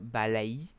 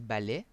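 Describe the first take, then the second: First: The last vowel glides like a-i. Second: The last vowel is a plain e sound. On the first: The speaker calls it wrong. "c'est A I, mais on prononce pas balaï" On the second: The speaker calls it right. "on dit balai"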